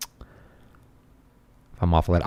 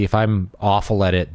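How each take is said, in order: First: Slow breathy whisper. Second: Said in the usual way. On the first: Shown as a demonstration. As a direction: whisper it slowly.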